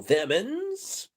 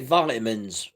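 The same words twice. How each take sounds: First: "vitamins" with a short i, VIT-amins. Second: "vitamins" with a long i, VYE-tamins. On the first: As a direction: say "vitamins" as VIT-uh-minz, questioning rise. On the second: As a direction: say "vitamins" as VYE-tuh-minz. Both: Shown as a demonstration. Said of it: "Is it vitamins or vitamins".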